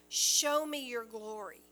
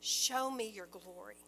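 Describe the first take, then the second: First: A bit louder, begging plea; urgent appeal; pleading cry. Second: Tender plea. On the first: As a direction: cry it out to God. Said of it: "So Moses is crying out". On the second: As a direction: ask gently out of love. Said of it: "a heart that is overflowing with love". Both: Retold or imitated.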